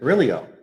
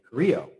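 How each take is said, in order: First: The name is pronounced the English way. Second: The name is pronounced the Spanish way. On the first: This is how people say it locally. "here it's Carrillo" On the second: This is how it is said in Spanish. "in Spanish, it'd be Carrillo"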